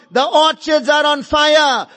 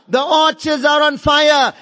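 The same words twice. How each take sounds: The two takes are said the same way.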